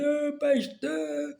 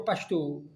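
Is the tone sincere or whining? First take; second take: whining; sincere. First: It is said in a whining, tearful tone. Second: It is said in a plain, sincere tone. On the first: The person is begging and pleading pitifully. The speaker calls it wrong. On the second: The person is honestly asking for help. The speaker calls it right.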